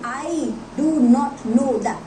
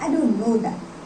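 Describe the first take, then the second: First: Each word of 'do not' is said separately. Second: 'Do not' is merged into one syllable, 'don't'.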